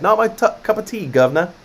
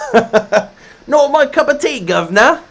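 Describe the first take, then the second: First: It is spoken in a generic British accent. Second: It is spoken in a Northern Irish accent. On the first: "Say this in a British accent" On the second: "if I do my Northern Irish"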